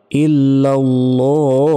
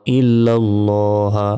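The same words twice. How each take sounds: First: "ইল্লাল্লাহ" with the last vowel held very long; "ইল্লাল্লাহ" recited slowly with a three-second final stretch; long stretched ending. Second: Said in the usual way. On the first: Shown as a demonstration. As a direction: chant "ইল্লাল্লাহ", drawing out the final vowel into a stopped h. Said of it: "তিন second টান হবে এখানে". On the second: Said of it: "থামলে".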